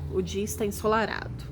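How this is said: It is said as a flat statement.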